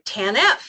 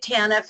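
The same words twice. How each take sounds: First: Two syllables, with the stress on the last. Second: Two syllables, with the stress on the first. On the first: "put the stress on the last signature" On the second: "I say it TANF"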